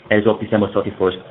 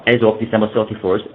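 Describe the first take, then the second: No difference in how they are said.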